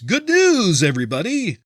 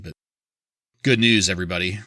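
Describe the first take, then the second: First: It is said in a Farnsworth impression voice. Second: It is said in his normal voice.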